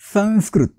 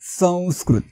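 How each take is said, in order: First: The nasal is a plain nasal consonant. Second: The nasal is a nasalized v glide. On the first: The speaker calls it wrong. "संस्कृत असा उच्चार करायचा नाही" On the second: The speaker calls it right. "अनुनासिक व चा वापर करायचा आहे"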